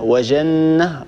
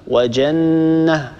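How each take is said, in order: First: The j sound is soft and fricative. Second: The j sound is hard and plosive. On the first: The speaker calls it wrong. "ولا نقول" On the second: The speaker calls it right. "الصواب ... هكذا لابد أن ننطق الجيم شديدة"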